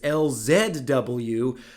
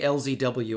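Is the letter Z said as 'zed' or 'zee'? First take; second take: zed; zee. First: The Z is pronounced 'zed'. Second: The Z is pronounced 'zee'. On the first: "as a proud Canadian, I should pronounce this" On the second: "occasionally I say"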